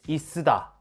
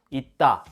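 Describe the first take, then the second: First: An extra sseu syllable follows the first syllable. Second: The first syllable closes with a clipped stop. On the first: The speaker calls it wrong. "설마" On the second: The speaker calls it right. "디귿으로 발음됩니다"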